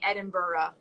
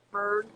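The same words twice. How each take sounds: First: The ending sounds like 'borough'. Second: The ending sounds like 'burg'. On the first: This is how locals say it. The speaker calls it right. "they say Edinburgh, so that's what I say" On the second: This is how an outsider says it. The speaker calls it wrong. "I would cringe every time she would say"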